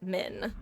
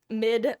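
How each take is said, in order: First: The word ends with an N sound. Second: The word ends with a D sound. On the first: "having to intentionally say the N" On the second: "I definitely say mid-max with a D as opposed to an N"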